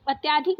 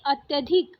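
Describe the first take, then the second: First: अत्याधिक with a long aa after ty; wrong long middle vowel. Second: अत्यधिक with a short a after ty; correct short middle vowel. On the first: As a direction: say अत्याधिक as "at-yaa-dhik". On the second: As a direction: say अत्यधिक as "at-yuh-dhik". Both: Shown as a demonstration. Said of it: "अत्याधिक नहीं".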